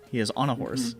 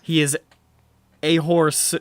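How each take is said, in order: First: Said in the usual way. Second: "a horse" run together as one word, loud and emphatic. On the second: Shown as a demonstration. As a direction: punch out "a horse" loudly as a single word. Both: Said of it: "one word".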